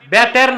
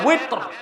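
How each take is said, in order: First: The word begins with a B sound. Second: The word begins with a W sound. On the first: The speaker calls it wrong. "এটার উচ্চারণ আমরা ভুল করি, বলে বেতের" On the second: The speaker calls it right. "তো শব্দটা হচ্ছে কি ওয়েত"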